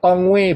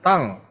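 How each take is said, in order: First: The word ends with an added 'way' sound. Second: The word ends with a plain 'ng' sound. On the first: The speaker calls it wrong. "jangan ngomong ... apa tongwei begitu, tidak" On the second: The speaker calls it right. "bacanya tang ya"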